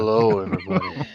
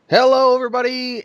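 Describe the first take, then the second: First: It is said in a put-on sexy voice. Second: It is said in a normal, upbeat host voice.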